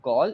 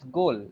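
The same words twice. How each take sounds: First: The vowel does not rhyme with pole. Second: The vowel rhymes with pole. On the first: The speaker calls it wrong. "it's not goal" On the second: The speaker calls it right. "it's goal, like pole"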